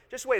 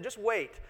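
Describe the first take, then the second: First: Just wait, said higher and louder, with a knowing punch; a louder second warning; emphatic repeat. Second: Said in the usual way. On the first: Real, not acted.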